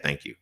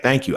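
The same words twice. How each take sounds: First: A much softer, lower, grudging thank you; reluctant thank you. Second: A bright, gracious thank you; polite thank you. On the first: Forced to thank for an unwanted gift, a grudging mumble. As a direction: mumble it as if it sticks in the throat. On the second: Accepting a gift he doesn't want, a polite thank-you. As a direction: say it kindly, a little lifted. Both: Retold or imitated.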